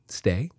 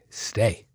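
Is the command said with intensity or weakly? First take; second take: weakly; with intensity. First: The command is said lightly, without firm intensity. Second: The command is said firmly, with strong intensity. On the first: The speaker lacks confidence with the dog. The speaker calls it wrong. "I'm not going" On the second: The speaker is confident with the dog. The speaker calls it right. "Do you hear the intensity?"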